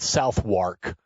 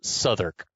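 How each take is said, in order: First: Every written syllable is sounded out in full. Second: The word is shortened, with sounds dropped. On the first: This is how the name is written. "spelled Southwark" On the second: This is how the name is actually said. "but pronounced Southwark"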